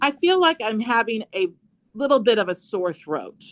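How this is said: The voice falls at the end.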